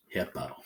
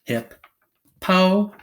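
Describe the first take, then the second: First: Said in the usual way. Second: "Hip, po" in two separated beats; syllable by syllable. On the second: Shown as a demonstration. Teacher putting syllables together, "Hip, po" said apart. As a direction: break "Hip, po" apart, "po" higher and louder. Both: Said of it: "Put 'em together".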